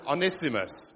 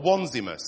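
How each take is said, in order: First: The first syllable does not sound like 'one'. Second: The first syllable sounds like 'one', as in onesie. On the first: "I'm going to pronounce him Onesimus" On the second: "if you want to think of him in a onesie"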